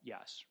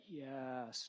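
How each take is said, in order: First: The word is said short and plain. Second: The word is drawn out long.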